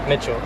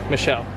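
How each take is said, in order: First: The name is said with a T sound. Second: The name is said without a T sound. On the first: The speaker calls it wrong. "Why did I say Mitchell?" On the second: The speaker calls it right. "There's no T"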